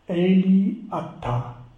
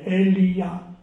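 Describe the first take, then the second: First: Two words are said with a break between them. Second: It is run together as one word, no break.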